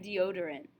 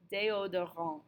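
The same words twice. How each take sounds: First: Deodorant said the English way, "dee-OH-der-ant"; English pronunciation. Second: Déodorant the French way, "day-oh-do-RON", final T silent; French pronunciation. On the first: Teacher listing the hardest cognates, English pronunciation of deodorant. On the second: Teacher listing the hardest cognates, French pronunciation of déodorant. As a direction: say déodorant with French vowels and a nasal ending. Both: Shown as a demonstration. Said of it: "three hardest ones in this unit".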